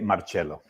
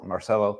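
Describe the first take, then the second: First: The name is said the Italian way. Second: The name is said the Argentine Spanish way. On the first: This is how other people say it. "Italians say Marcello" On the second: This is how the owner of the name says it. "I was born in Argentina, Marcelo"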